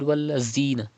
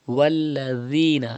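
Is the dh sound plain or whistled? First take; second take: whistled; plain. First: The dh sound has a whistle. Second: The dh sound has no whistle. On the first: The speaker calls it wrong. "Do not read" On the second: The speaker calls it right. "Pronounce ذال without whistle"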